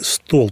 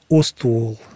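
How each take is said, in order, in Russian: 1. Слово начинается с двух согласных подряд. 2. Слово начинается с добавленного гласного звука. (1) "нельзя сказать по-якутски «стол»" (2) "«ст» нельзя сказать"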